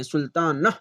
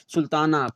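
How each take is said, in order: First: सुल्ताना as "sultaan-nah", final h sounded; wrong reading demo. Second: सुल्ताना ending smoothly in "naa"; silent final h. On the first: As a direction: split off a breathed "nah" at the end of सुल्ताना. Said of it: "नह नहीं पढ़ते हैं". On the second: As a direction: say सुल्ताना in one piece, no h. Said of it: "इस तरह से हम पढ़कर". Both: Shown as a demonstration.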